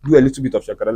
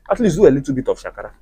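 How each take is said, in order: First: "Do" leaned on, even pace; measured restatement. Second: Fast, rushed advice; quick first take. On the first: Correcting herself to ladies, measured and firm. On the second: Advising single ladies, said fast and light. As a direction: tosses the line off quickly. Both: Shown as a demonstration. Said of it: "I didn't say you should do it so much".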